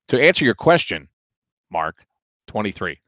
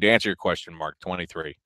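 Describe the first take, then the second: First: It has a clear pause before the number. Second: It runs on without a pause before the number. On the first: The speaker calls it right. "There needs to be a pause there" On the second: The speaker calls it wrong. "that sounded wrong"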